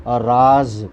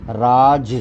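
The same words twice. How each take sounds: First: राज with a z, as in secret; राज ending in a buzzing z sound; राज meaning secret, with z; nukta z. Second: राज with a plain j, as in rule; राज ending in a plain j sound; राज meaning rule, with j. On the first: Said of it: "राज माने रहस्य". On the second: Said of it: "राज माने शासन". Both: Shown as a demonstration.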